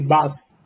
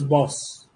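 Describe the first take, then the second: First: The vowel is open like in 'bus'. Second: The vowel is rounded like in 'boss'. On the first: The speaker calls it wrong. "When a Tamilian does that, he says bas" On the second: The speaker calls it right. "but the word is boss"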